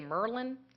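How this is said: It is said in a Baltimore accent.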